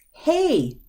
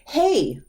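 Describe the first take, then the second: First: High call of hey; attention-grabbing hey. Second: High, bright call of hey; attention-grabbing hey. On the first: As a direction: call out to a friend. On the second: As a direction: call out to catch a friend. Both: Shown as a demonstration. Teacher greeting someone with a high hey. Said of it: "Grabbing somebody's attention".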